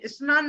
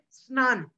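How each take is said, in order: First: स्नान said as "इस्नान" with an extra i; raised wrong take of स्नान with a vowel before s; wrong regional pronunciation. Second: स्नान begun straight on sn, no vowel before it; correct pronunciation. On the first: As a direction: demonstrate the mistake: इस्नान for स्नान. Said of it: "स्नान को स्नान बोलते हैं". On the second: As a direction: say स्नान cleanly. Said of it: "वह है स्नान". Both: Shown as a demonstration.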